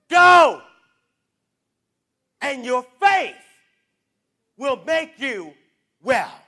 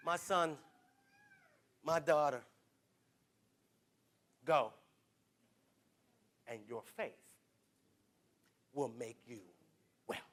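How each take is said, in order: First: Loud declared repeat; shouted blessing. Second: Hushed gentle voice of Jesus. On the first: Real, not acted. Preacher repeating the blessing, loud declaration. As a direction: proclaim it to the whole church. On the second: Retold or imitated. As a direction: speak it like a quiet blessing. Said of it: "he's gonna say to you".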